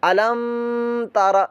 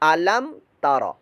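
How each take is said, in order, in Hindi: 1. m को नासिका की गूंज के साथ रोका जाता है। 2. m को नासिका की गूंज के बिना साफ़ बोला जाता है। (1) "ऐसे नहीं" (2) "इजहार शफवी यानी कि हम गुन्ना नहीं करेंगे"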